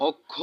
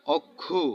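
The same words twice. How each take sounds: First: Said in the usual way. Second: অক্ষু ending on a u sound, okkhu; pronounced okkhu. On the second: Shown as a demonstration. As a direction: finish অক্ষু on a short u. (শেষে উ-কার দিয়ে অক্ষু) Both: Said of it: "ও এর উচ্চারণ উকার হয়".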